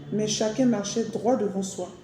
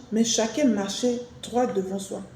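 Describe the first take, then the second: No difference in how they are said.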